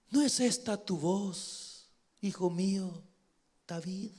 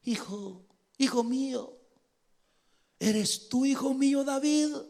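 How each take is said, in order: First: Put-on tender old king. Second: High, halting acted voice; hammed-up pleading father. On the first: Saul recognizing David's voice, tender and hushed. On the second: Saul calling to his son David, hammed-up pleading. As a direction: plead with rising pitch, mock-emotional.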